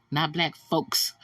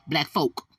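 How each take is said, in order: First: "folks" said with the final s as the wrong version; "folks" with s, set up to be corrected; wrong form. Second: "folk" said with no final s, firmly; right form. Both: Shown as a demonstration.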